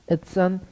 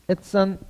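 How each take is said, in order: Both takes have the same delivery.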